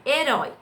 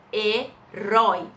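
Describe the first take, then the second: First: Said in the usual way. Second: "herói" drawn out slowly as he-rói; slow syllables. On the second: Shown as a demonstration. Teacher syllabifying "herói" slowly for the class. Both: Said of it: "o i não se separam".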